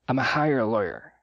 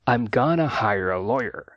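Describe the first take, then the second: First: 'I am going to' is shrunk to 'I'm a'. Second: 'I am going to' is reduced to 'I'm gonna'. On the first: "Ou ainda mais reduzida" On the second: "uma forma mais natural é I'm gonna"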